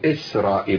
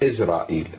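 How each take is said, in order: First: The word is said with an s sound. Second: The word is said with a z sound. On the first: This is how Arabic speakers say it. "احنا نقول اسرائيل" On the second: This is how Latin-language speakers say it. "هم يقولون ازرائيل"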